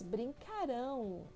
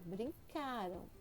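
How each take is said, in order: First: The stress falls on the last syllable. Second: The stress falls before the last syllable. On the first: The action will happen in the future. "a sílaba tônica mudou" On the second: The action happened in the past. "Tá vendo a entonação?"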